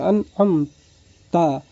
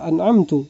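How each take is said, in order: First: The final syllable ends with an 'a' vowel. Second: The final syllable ends with a 'u' vowel. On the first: The one addressed is the one who bestowed favor. The speaker calls it right. "seharusnya an'amta bil fathah" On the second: The speaker claims to be the one who bestowed favor. The speaker calls it wrong. "ada kesalahan baca"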